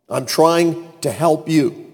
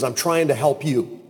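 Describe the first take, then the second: First: "I'm trying to help you" slowed and spaced out; slow emphatic repeat. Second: Said in the usual way. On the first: Acted. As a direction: drive home "trying to help you" slowly, with pauses. Repeats the line slowly for emphasis.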